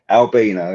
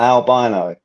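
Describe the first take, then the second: First: It is said with the speaker's local pronunciation. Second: It is said with an American pronunciation. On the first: The speaker calls it right. "that's how we say it here" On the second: The speaker calls it wrong. "It's not albino"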